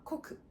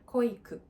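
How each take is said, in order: First: The first vowel is short, with no extra i. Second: The first vowel is lengthened, with an extra i. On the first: The speaker calls it right. "でも実際には濃くです。" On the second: The speaker calls it wrong. "濃くじゃなくて濃いくと言いました。まあ、少し関西のイントネーションが入ってるのかもしれません。"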